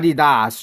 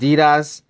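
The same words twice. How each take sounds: First: It is said with a German pronunciation. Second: It is said with an American pronunciation. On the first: "In Germany, they call it uh, Adidas" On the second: "in America, we pronounce uh, Adidas, right? We just pronounce it Adidas"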